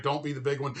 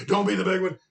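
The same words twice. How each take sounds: First: Said in the usual way. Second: Louder plea. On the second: Retold or imitated. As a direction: repeat it louder and higher, pleading. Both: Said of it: "and I was like".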